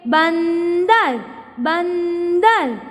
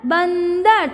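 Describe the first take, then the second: First: बंदर drawn out very slowly, न clear between ब and द; slow demo of बंदर's nasal; nasal sound stretched. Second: Said in the usual way. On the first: Shown as a demonstration. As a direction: hum the न inside बंदर. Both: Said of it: "ब और द के बीच में न का sound".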